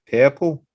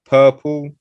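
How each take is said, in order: First: Purple with an open eh vowel, pehple; Liverpool purple. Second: Said in the usual way. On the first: Shown as a demonstration. Explaining Liverpool vowels, purple with Liverpool eh. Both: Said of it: "like purple becomes".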